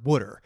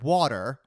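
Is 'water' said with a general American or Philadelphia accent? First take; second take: Philadelphia; general American. First: Water is said in a Philadelphia-area accent. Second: Water is said in a general American accent. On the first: "W-O-O-D-E-R is how they pronounce the word water" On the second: "which is how I say it now because I've lived out here for so long"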